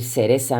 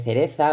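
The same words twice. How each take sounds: First: "cereza" con s en lugar de z: "seresa"; seseo andaluz. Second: Said in the usual way. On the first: Shown as a demonstration. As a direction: di "cereza" seseando, las dos consonantes como s. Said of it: "por ejemplo, decir cereza en vez de". ("cereza" con seseo, sonidos de s) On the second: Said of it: "en vez de cereza".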